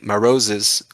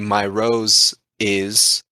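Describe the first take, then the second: First: Said fast, 'my' shrinks to a short 'ma'. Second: The word 'my' keeps its full 'y' glide. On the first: "when you say it faster, it doesn't have that time to sound like a Y sound" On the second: "you would have to modify the way you say my"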